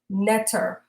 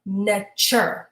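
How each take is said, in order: First: The middle consonant is a plain t sound. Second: The middle consonant is a ch sound.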